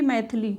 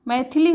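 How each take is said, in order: First: मैथिली as "maith-lee", no middle i; dropped-vowel mistake. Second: Said in the usual way. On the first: Shown as a demonstration. Teacher contrasting the error, मैथिली without its middle i. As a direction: run th straight into l in मैथिली. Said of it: "ना कि मैथिली". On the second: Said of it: "था में ई की मात्रा".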